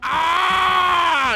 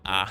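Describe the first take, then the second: First: The ah is the biggest and loudest. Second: The ah is small and quiet.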